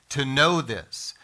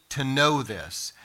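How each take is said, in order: Both takes have the same delivery.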